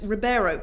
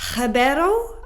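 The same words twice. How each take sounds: First: The name is pronounced with English sounds. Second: The name is pronounced with non-English sounds. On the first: The speaker calls it wrong. "that's such an English way" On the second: The speaker calls it right. "I think it's meant to be"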